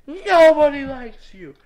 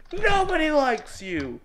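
First: Slow, emphatic frustrated outburst; forceful exasperated rejection. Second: Slow, drawn-out frustrated whine; exasperated rejection. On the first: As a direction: hit the first word hard and drag it out. Rant at program, forceful repeat. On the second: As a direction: slowly push them away in exasperation. Rant at program, first take. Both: Real, not acted.

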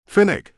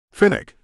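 First: Name called out high and loud from behind; calling out. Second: Name said high and louder, trying to cut in; urgent plea. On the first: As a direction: shout the name across the room, high and loud. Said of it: "Beckett called from behind me". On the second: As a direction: break in with the name, high and pressing. Father pleading, about to explain. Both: A narrator's reading.

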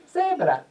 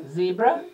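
First: "zebra" in Spanish, starting "seh". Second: "zebra" in English, first vowel "zee". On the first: Comparing languages for children, Spanish pronunciation of "zebra". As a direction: say "zebra" as Spanish "SEH-bra", falling at the end. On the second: Comparing languages for children, English pronunciation of "zebra". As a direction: say "zebra" the English way, ending on a rise. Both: Shown as a demonstration. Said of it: "that sounds the same".

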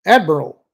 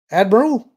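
First: Loud, urgent snap; snapped alert. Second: High, loud questioning call; tentative, high-pitched. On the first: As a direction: snap it out from the sensor station. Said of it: "a voice snapped from the sensor station". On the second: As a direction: call out uncertainly, voice unnaturally high and rising. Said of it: "called tentatively, his voice unnaturally high-pitched". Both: A narrator's reading.

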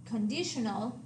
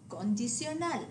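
First: Conditional with a sh sound, stress on DI; English conditional, stressed on the second syllable; English pronunciation. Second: Condicional with stress on final NAL; Spanish condicional, s sound for the c before i; Spanish pronunciation. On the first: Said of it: "The English word". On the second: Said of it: "stress on the last syllable". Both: Shown as a demonstration.

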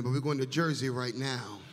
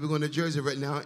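First: Said in the usual way. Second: 1 louder repeat. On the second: Real, not acted. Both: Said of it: "I said".

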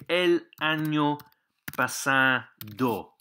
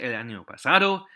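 First: El año pasado drawn out word by word; El año pasado stretched out for learners; slow phrase model. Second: Said in the usual way. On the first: Shown as a demonstration. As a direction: say pasado slowly as pa-sa-do. Teacher models phrase slowly, then normally.

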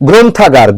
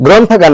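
First: গ্রন্থাগার opening with "gron", closed vowel; correct pronunciation demo. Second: গ্রন্থাগার opening with "grawn", open vowel; wrong pronunciation demo. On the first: Teacher correcting a common error, গ্রন্থাগার with closed "o". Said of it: "এটা হবে কি?". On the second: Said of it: "গ্রন্থাগার না". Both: Shown as a demonstration.

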